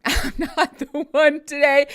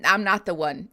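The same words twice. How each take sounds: First: Higher, louder and slower, laughing through it; laughing emphatic repeat. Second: Said in the usual way. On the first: Shown as a demonstration. Streamer warning chat she is not the one, laughing and louder. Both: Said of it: "I'm asking kindly from the outset".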